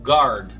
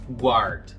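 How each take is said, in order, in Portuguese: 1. Não se ouve som de 'w' depois do g. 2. Ouve-se um som de 'w' depois do g. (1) "em inglês não se pronuncia o U, a gente fica com guard" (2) "e não guard"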